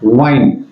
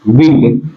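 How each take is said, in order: First: The vowel is a long 'eye' sound. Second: The vowel is a short 'i' sound. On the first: It is the verb form. "अगर ये verb में होती है तो इसका उच्चारण होता है वाइन" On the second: It means moving air, the noun. "देखिए इसका उच्चारण होगा विंड"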